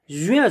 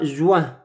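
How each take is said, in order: First: The J is followed by a rounded 'ui' glide. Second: The J is followed by a 'w' glide. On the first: The speaker calls it right. "C'est ui" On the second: The speaker calls it wrong. "ce n'est pas juin... ce n'est pas wa"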